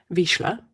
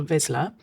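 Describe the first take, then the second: First: Vizsla with a sh, "VEESH-la"; corrected pronunciation. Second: Vizsla with a z, "VIZ-la", rising; questioning pronunciation. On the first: Host correcting a dog breed's name, Vizsla as "veesh-la". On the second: Host naming a dog breed, Vizsla as a rising "vizz-la". Tries breed name two ways. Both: Real, not acted.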